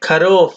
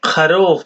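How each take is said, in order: First: খরুফ with a hard k at the start; English-style pronunciation. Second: খরুফ with a throaty kh at the start; Arabic pronunciation. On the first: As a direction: say খরুফ as read from English letters, opening on k. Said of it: "ইংরেজি উচ্চারণ". (ইংরেজি ধাঁচে খরুফ, শুরুতে ক-এর মতো) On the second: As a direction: say খরুফ the Arabic way, opening on a rasped kh. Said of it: "উচ্চারণ". (আরবি উচ্চারণে খরুফ, শুরুতে গলার খ) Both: Shown as a demonstration.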